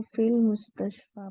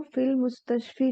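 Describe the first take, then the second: First: मुस्तशफा ending in an open, long 'aa'; teacher's model reading, मुस्तशफा finishing on 'aa'; correct ending demonstrated. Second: मुस्तशफी ending in a long 'ee' sound; teacher's counterexample, मुस्तशफी closed on 'ee'; wrong ending demonstrated. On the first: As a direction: say फिल मुस्तशफा with a final 'faa', not 'fee'. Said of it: "इसको फिल मुस्तशफा पढ़ेंगे". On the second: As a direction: say फिल मुस्तशफी with a final 'fee' in place of 'faa'. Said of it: "नहीं पढ़ेंगे". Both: Shown as a demonstration.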